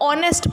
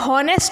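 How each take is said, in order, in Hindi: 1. शब्द की शुरुआत एक स्वर से होती है, इसमें h की ध्वनि नहीं है। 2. शब्द की शुरुआत एक साफ़ h ध्वनि से होती है। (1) "इसको ऑनेस्ट पढ़ते तो एच साइलेंट हो गया" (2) "हॉनेस्ट नहीं पढ़ते"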